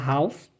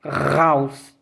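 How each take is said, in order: First: "house" with a plain breathed H; clean H. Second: "house" with a long throaty scrape at the start; guttural H. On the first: Teacher showing the intended word casa, clean H. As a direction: begin "house" lightly, no throat scrape. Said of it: "Você quer falar casa". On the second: Teacher showing the learner's slip, guttural H. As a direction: rasp the H of "house" like a German R. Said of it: "você gutura o H". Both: Shown as a demonstration.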